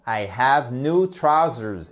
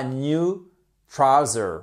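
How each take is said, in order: First: Slow model sentence ending in Z on trousers; correct plural trousers. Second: Trouser with the final S dropped; slow trouser, no Z at the end; wrong singular trouser. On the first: Teacher models the plural slowly, trousers with final Z. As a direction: trousers with a clear final Z sound. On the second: Teacher shows what doesn't work, trouser without final S. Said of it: "et pas new trouser". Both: Shown as a demonstration.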